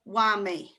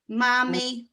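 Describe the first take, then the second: First: The word begins with a W sound. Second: The word begins with an M sound.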